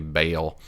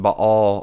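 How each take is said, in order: First: It is said in a Southern US accent. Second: It is said in a plain, neutral accent.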